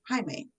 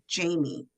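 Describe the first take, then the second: First: The name begins with a soft J sound. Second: The name begins with a hard J sound. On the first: The speaker calls it right. "It's pronounced Jaime. Soft J, like jalapeno" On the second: The speaker calls it wrong. "You said Jamie"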